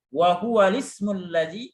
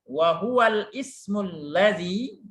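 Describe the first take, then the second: First: The hamza is dropped and the vowel moves back. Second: The hamza is pronounced after the article. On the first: "tapi wa huwa lismul ladzi" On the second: "kalau susah ya enggak apa-apa"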